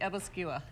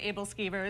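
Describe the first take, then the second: First: The word ends with a short 'skua' sound. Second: The word ends with a clear 'skivers' sound. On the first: This is how the family has always said it. "we have always said Abelskua" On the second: This is how some other people say it. "Some people do say Abelskivers"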